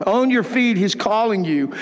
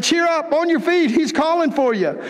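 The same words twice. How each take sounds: First: Said in the usual way. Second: Pitched up, urging him on; eager call. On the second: Acted. The crowd urging the blind man up, excited call. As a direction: call him to his feet, higher.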